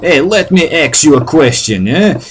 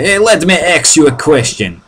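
First: Put-on Jersey tough-guy accent, "ask" said "axe"; mock Jersey accent. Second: Put-on New Jersey accent, "ask" said "axe"; mock Jersey accent. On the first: Mocking Jersey guys, New Jersey accent. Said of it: "humorous people who talk like that". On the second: Retelling Jersey guys' question, New Jersey accent. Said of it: "guys in New Jersey like that".

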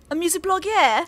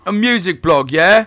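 First: Light, higher mock British; mock British intro. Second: Loud, high mock British; mock British intro. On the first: Host starting the interview intro, light mock British. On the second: Guest echoing the intro, loud mock British. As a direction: shout the intro back in a hammy British accent. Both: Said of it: "start our intro".

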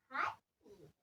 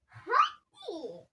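First: Hadi dropped low and soft; muttered. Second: Hadi called out a bit louder and drawn out; a pushy hadi; urging. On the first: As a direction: let the second hadi sink under your breath. Urging, then dropping off. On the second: Urging the other child to play. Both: Real, not acted.

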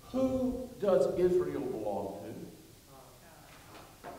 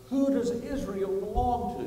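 First: Said in the usual way. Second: "Who does Israel belong to" pitched higher and a little louder; "Who does Israel belong to" as a lifted, rousing call for an answer; insistent repeated question. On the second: Real, not acted. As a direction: ask "Who does Israel belong to" with more push, prompting the crowd. Let me ask you again.

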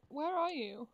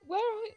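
First: Said in the usual way. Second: Higher, louder anxious call; scared horror game streamer. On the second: Real, not acted. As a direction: call out nervously into the dark. Searching for the baby, louder.

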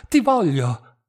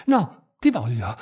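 First: Louder, rising passion, stress on ti; as if drunk with desire. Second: Low, pressing, with stress on ti; urgent ti voglio, heavy stress on ti; as if drunk with desire. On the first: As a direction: ti voglio pushed out loud, ti stressed. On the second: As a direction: insist hungrily, stressing ti. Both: A narrator's reading. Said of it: "diss'egli ancora com'ebbro".

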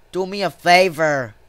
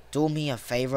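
First: Said in the usual way. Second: Low, soft muttered request; quiet plea. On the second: Real, not acted. Player pleading with the game to himself, quiet plea. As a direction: repeat it under your voice, much lower.

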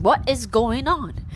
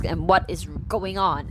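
First: Higher, slowed-down baffled what is going on; bewildered question. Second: Said in the usual way. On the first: Retold or imitated. Narrator echoing the husband's question, slower, higher, baffled. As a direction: stretch it out, higher, in disbelief. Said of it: "And I'm also asking". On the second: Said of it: "our main character is like".

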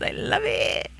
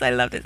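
First: Breathy high whisper of delight; whispered gush. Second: Said in the usual way. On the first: Real, not acted.

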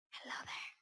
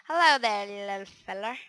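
First: Whispered greeting. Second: Loud greeting. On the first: Whispering to the spider. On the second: Greeting the spider before killing. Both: Pretend.

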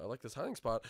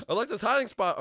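First: Said in the usual way. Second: Much higher and louder; loud, high-pitched insistence; insistent outburst. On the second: Real, not acted. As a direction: blurt it out emphatically. Repeats it insistently.

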